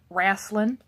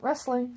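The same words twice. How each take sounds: First: It is said in a Southern accent. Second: It is said in the speaker's normal accent.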